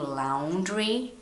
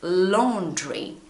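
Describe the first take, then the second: First: It has a Brazilian-influenced pronunciation. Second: It has a British English pronunciation. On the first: The speaker calls it wrong. "you are Brazilian like me, you are probably saying laundry, but it's not" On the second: The speaker calls it right. "It's laundry. Of course, my English is British"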